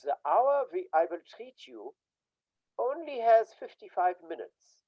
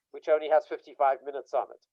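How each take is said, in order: First: Put-on light Austrian German accent; lightly put-on Austrian German accent, "has" leaned on; Freud's Austrian German accent. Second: Said in the usual way. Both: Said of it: "he spoke with a German, an Austrian German accent".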